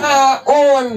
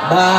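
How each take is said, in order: First: The name is said in full, ending in -un. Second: The name stops short without the -un ending. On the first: This is the original full form of the letter name. "Asalnya tadi apa?" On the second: This is the form used when pausing on the word. "Diberhentiin wakaf jadi apa?"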